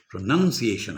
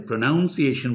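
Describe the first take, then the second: First: "প্রনাউন্সিয়েশন" said as "pro-NUN-ciation"; correct pronunciation. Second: "প্রনাউন্সিয়েশন" said as "pro-NOUN-ciation"; wrong pronunciation. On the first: Teacher naming the real word, "প্রনাউন্সিয়েশন" with "nun" inside. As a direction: put "nun" in the second syllable of "প্রনাউন্সিয়েশন". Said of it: "আছে". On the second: Teacher naming a non-existent word, "প্রনাউন্সিয়েশন" with "noun" inside. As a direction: put the "ow" of "pronounce" into "প্রনাউন্সিয়েশন". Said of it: "বলে কোনো শব্দ নেই ইংরেজিতে". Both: Shown as a demonstration.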